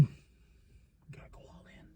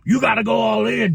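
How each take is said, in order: First: Whispered slow repeat of the pep talk. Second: Hammed-up Jeff Jarrett yell; mock shout. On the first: Retold or imitated. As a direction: lean in and whisper it. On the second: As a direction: pump him up with a mock shout. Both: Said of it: "Jeff Jarrett's like".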